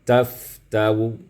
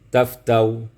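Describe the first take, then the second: First: The word ends with a faint, partly voiced vowel. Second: The word ends abruptly with no final vowel. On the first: "kemudian baca dengan rum" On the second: "kita mulai membacanya dengan sukun"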